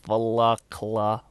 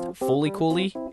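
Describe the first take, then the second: First: It is said as three syllables, fuh-lak-la. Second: It is said as four syllables, foo-lee koo-lee. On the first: The speaker calls it wrong. "or Fulakla" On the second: The speaker calls it right. "it is actually pronounced Fooly Cooly"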